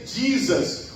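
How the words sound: It is said with an American English accent. "Os americanos dizem"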